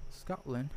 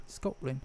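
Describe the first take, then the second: First: Said in the usual way. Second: Softer Scottish-accented SCOTLAND, rounded first vowel. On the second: Shown as a demonstration. Teasing a friend about Scottish roots, Scottish accent. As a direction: say SCOTLAND as a mock Scot would.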